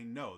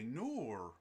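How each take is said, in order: First: The word ends plainly without an added glide. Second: The word ends with an added r-like glide. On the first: "they don't say no" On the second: "they say noor"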